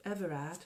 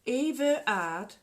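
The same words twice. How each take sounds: First: Said in the usual way. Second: "Eve Erard" said slowly as two separate words, rising; split name. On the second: Shown as a demonstration. Reading out "Eve Erard" from the spam emails, slow and split. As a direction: drag out "Eve Erard" like a fancy foreign name. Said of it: "Shay Arder is Stay Arder".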